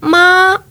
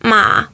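First: The pitch stays high and level. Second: The pitch dips low and then rises. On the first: It means mother. "это будет «мама»" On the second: It means horse. "лошадь"

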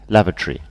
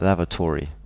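First: The stress falls on the first syllable. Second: The stress falls on the last part. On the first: "So we stress the first part, the first syllable" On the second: "You stress the last part"

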